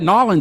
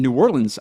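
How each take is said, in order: First: The name is squeezed into two short syllables. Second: The name is said in full, syllable by syllable.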